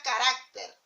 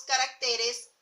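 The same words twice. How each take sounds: First: "carácter" stressed on the middle RAC; stress on second syllable. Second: "caracteres" stressed on TE, the next-to-last syllable; stress shifted to TE. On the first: Teacher showing students where "carácter" takes its accent, stressed middle syllable. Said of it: "lleva tilde". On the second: Teacher showing the plural "caracteres" to students, stress shifted to TE. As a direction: say "caracteres" with the accent moved onto TE. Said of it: "cuando nosotros le colocamos el plural". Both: Shown as a demonstration.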